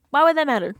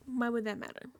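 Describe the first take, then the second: First: Much louder, pitch jumping up, WOULD hit hard; exasperated shout. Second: Said in the usual way. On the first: Real, not acted. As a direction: yell it out in disbelief. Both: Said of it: "repeated louder".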